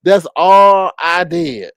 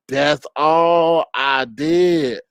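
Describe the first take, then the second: First: Said in the usual way. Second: That's all I did stretched very slow; slow dragged. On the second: Pretend. Streamer mock pleading to a rival, slow dragged whine.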